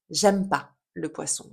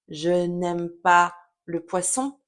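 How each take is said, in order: First: The word 'ne' is left out entirely. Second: The word 'ne' is pronounced in full. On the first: "je vais dire" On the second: "j'aurais tendance à ne pas dire"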